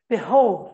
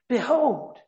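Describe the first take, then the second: First: It is said in a proud, self-satisfied tone. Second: It is said in a grateful, amazed tone. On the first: The achievement is credited to the speaker himself. The speaker calls it wrong. "Don't read it as though he's proud of his achievement" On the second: The result is hard to believe and is received with gratitude. The speaker calls it right. "it's gratitude mixed with almost amazement"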